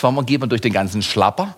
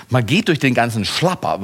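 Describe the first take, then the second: First: Geht stressed, Schlapper rising as a question; questioning rise. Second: Durch stressed, Schlapper falling firmly; answering fall. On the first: Preacher puzzling aloud to the congregation, rising question. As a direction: ask it, lift the end. Rhetorical question, then his answer. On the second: Preacher answering his own question, falling and sure. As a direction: settle the answer downward. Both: Acted.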